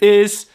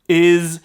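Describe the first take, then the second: First: The final consonant is a hissing s sound. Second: The final consonant is a buzzing z sound. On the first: "so that tur- turns into s"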